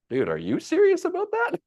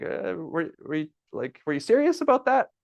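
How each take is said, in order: First: Very high, squeaky excited question; mock high-pitched excitement; excited echo. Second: Much higher, rising disbelief; imitating a doubtful friend; Don incredulous. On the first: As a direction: toss the question back with glee. Echoing Don's question back. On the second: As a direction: squeak out the question in disbelief.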